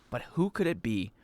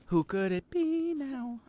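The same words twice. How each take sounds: First: Said in the usual way. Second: Soft, high, slow singing; sung. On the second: Pretend. Streamer puzzling over whose voice it is, sung. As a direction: sing it softly, drawing out the words. Breaks into a song line.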